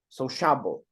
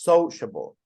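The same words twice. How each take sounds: First: The stress is on the second syllable. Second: The stress is on the first syllable. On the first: The speaker calls it wrong. "That would be the second one" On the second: The speaker calls it right. "absolutely, on the first"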